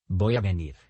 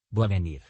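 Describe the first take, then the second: First: Said in the usual way. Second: «voy a venir» squeezed into «bua venir»; «voy a» contracted. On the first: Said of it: "Unieron dos o más palabras". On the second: Shown as a demonstration. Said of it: "suprimiendo fonemas". («voy a venir» contraído en «bua venir»)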